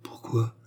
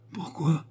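First: Breathless frightened whisper; terrified whisper. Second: Higher, pleading repeat; frightened cry. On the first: The worker asks Léon why, in a frightened whisper. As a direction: ask it under her breath, scared. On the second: The worker repeats her question to Léon, higher and alarmed. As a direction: ask it again higher, more alarmed. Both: A narrator's reading. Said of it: "Elle le regarda avec une sorte de terreur".

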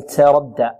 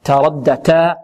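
First: تردى with a hissy "ts" for ت; sin-tinged ta. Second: تردى with a crisp ت free of any s; clean ta. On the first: Teacher showing what not to say, hissy ta. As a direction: let an s leak into the ت of تردى. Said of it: "التاء لا نشربها رائحة السين". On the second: Teacher giving the correct letter, clean ta. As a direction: keep the ت of تردى a pure stop. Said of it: "بل نقول تاء". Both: Shown as a demonstration.

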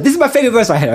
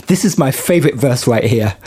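First: A higher, lightly voiced singer impression. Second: Laughing through a singer's quote. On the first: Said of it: "I can't do the accent, but it's like". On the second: Retold or imitated. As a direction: giggly attempt at her accent. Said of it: "I can't do the accent".

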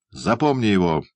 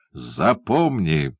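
First: Said in the usual way. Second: Slow menacing repeat. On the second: A narrator's reading. Man repeating his order over the captured boy, slowly.

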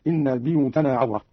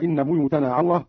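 First: "بيوتنا" as biyutana; short i after the b of "بيوتنا"; kasra on ba. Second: Said in the usual way. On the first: Shown as a demonstration. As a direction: say "بيوتنا" with bi, not bu. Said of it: "قرأ قالون بكسر الباء هكذا". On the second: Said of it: "قرأ قالون بكسر الباء".

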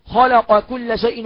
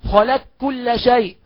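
First: Said in the usual way. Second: "خلق كل" recited slowly as khalak-kulla; qaf merged into kaf. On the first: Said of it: "مثال القاف". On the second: Shown as a demonstration. Teacher giving the qaf example, "خلق كل" merged as khalak-kulla. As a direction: drop the q of "خلق" into a double k. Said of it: "نقول".

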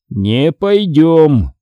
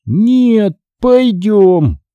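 First: Very slow, drawn-out refusal; zombie father refusing. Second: High, drawn-out stubborn insistence; stubborn zombie son. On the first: Father refuses his son, long slow zombie drawl. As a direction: drag the words out like the undead. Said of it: "бросил Саймон". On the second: Son stubbornly contradicts his father, high zombie drawl. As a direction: pitch it up and stretch each word. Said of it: "упрямо повторил Натан". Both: A narrator's reading.

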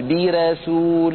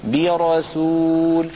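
First: برسول with a thin light ra, the wrong way. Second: برسول with a full heavy ra; correct heavy ra. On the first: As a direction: say برسول slowly with a thinned r. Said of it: "ورشا لا يقول". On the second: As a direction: say برسول slowly with the r thick. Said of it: "بل يقول". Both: Shown as a demonstration.

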